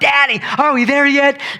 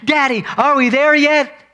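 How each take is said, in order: First: It sounds childlike and excited. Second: The same.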